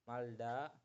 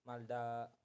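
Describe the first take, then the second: The two takes are said the same way.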